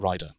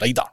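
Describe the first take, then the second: First: The vowel in rider has an English quality. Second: The vowel in rider has a Scottish quality.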